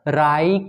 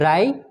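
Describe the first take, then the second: First: The final vowel is long. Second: The final vowel is very short. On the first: The speaker calls it right. "कितना सुंदर लग रहा है अब मुहावरा" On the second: The speaker calls it wrong. "राई लघु एक की मात्रा है"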